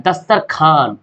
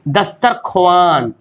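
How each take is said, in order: First: दस्तरखान lower, with no "w"; as spoken. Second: दस्तरख्वान slow, "dastar-kho-waan"; as written. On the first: Teacher showing everyday speech, दस्तरखान without "w". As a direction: drop the "w", say दस्तरखान. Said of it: "हम लोग बोलते क्या". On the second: Teacher reading out the spelling, दस्तरख्वान slow with "w" sounded. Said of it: "और हम लोग बोलते क्या". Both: Shown as a demonstration.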